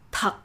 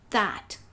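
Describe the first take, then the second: First: It is pronounced with Vietnamese sounds and tone. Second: It is pronounced like the English word. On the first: The speaker calls it right. "while in fact it is pronounced thật" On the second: The speaker calls it wrong. "your brain will tell you that it's pronounced that, like in English"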